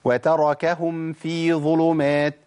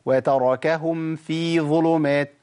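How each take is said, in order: The two takes are said the same way.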